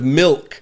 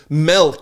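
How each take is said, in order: First: The vowel has the standard quality. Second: The vowel has a regional, nonstandard quality. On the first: The speaker calls it right. "instead of milk" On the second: The speaker calls it wrong. "I said milk"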